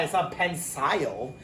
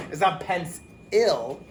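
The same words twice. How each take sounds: First: Pensile with a long eye sound at the end; wrong long I. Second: Pens-il slowly, with a clear short i in the last part; slow pens-il, each part apart; spelled-out I. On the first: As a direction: say pensile rhyming with mile. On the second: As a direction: split pens-il in two, the i said clearly. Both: Shown as a demonstration. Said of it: "No one says pencil".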